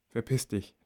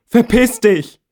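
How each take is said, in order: First: Verpiss dich said under the breath as a thought; softer private curse; thought silently. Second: Verpiss dich screamed high and loud, falling; high, loud furious scream. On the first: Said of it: "denke ich". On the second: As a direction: scream Verpiss dich through tears at the door. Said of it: "schreie ich". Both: A narrator's reading.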